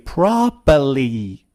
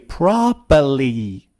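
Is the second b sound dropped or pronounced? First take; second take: dropped; dropped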